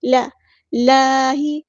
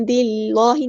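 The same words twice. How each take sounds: First: لا ہی with a light l and open a; thin lam. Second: لا ہی with a dark, rounded law; heavy lam error. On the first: Teacher models it right, thin lam in لا ہی. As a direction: keep the l light in لا ہی. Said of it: "اللہ کا لام باریک پڑھیں گے". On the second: Teacher shows the error, heavy lam in لا ہی. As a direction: thicken the l in لا ہی to law. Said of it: "نہیں". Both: Shown as a demonstration.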